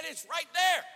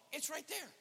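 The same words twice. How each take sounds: First: High, loud insistence; emphatic shout. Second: Raised pitch at ordinary volume; high matter-of-fact pointing. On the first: Cashier repeating himself to a baffled customer, shouted. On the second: Cashier showing a customer the street, high and unshouted. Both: Retold or imitated.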